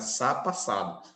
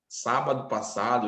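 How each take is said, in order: First: The word sábado is cut down to one syllable. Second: The word sábado is said with all three syllables. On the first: "eles abreviam para sá passado" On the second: "a gente não fala assim"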